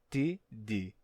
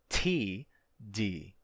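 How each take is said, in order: First: The T is said without a puff of air. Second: The T is said with a puff of air. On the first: "Não é simplesmente T D" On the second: "é também aspirado. Tem vento que sai com ele"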